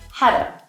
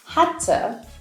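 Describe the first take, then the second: First: The T is flapped and reduced, American style. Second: The T in 'to' is clear, British style. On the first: "in the U S, you would probably hear hadda" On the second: "In England, you would probably hear had to"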